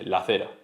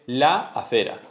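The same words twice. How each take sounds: First: The two a vowels merge into one. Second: The two a vowels are said separately. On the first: The speaker calls it right. "todo el mundo dice la acera" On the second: The speaker calls it wrong. "Nadie dice la acera"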